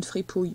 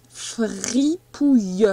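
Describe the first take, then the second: First: Said in the usual way. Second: "Fripouille" very slowly, stretched syllable by syllable, fri-pouille; slow sounding-out. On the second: Shown as a demonstration. Teacher dictates a word to a pupil, "Fripouille" slowly sounded out.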